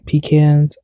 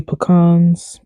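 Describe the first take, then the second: First: Pecans said as PEE-kanz; pecans corrected to PEE-kanz, long first vowel; usual PEE-cans pronunciation. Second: Pecans said as puh-KAHNZ; pecans as puh-KAHNZ, second syllable drawn out; puh-KAHNS pronunciation. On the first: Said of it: "I don't normally say pecans". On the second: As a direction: say pecans with a short "puh" and a long open "kahn". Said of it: "Why did I say pecans". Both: Real, not acted.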